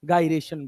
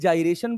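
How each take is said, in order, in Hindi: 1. यह शब्द hard G की आवाज़ से शुरू होता है। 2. यह शब्द J की आवाज़ से शुरू होता है। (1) "कहीं गायरेशन बोला जाता है" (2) "कहीं जाइरेशन बोला जाता है"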